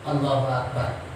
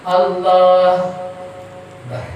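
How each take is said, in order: First: It is said quickly without a pause. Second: There is a long pause between words.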